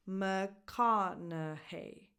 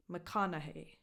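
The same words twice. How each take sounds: First: "McConaughey" very slow, stressed on "ka" and "hey"; slow teacher's model, muh-KA-nuh-HEY; syllable-by-syllable stress demo. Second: Said in the usual way. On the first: Shown as a demonstration. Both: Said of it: "The stresses go on ka".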